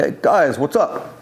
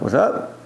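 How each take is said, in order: First: A lightly imitated thick Greek accent, friendly; hint of a Greek accent, casual hello. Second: Said in the usual way. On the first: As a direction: greet them as an older Greek building owner, accent a touch put on. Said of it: "he had a thick accent".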